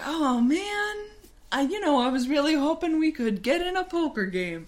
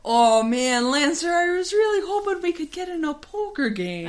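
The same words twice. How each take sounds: First: High, quick Minnesota lilt, played for laughs; hammy Minnesotan with round O's; Minnesota accent. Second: High put-on Minnesota lilt sliding into Irish; hammed-up, wandering Minnesota-Irish brogue; Minnesota accent turning Irish. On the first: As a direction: voice a let-down pal in a Minnesota accent. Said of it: "accidentally doing the accent again". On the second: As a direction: start Minnesotan and drift towards a bad Irish accent. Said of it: "that's slowly turning into Irish".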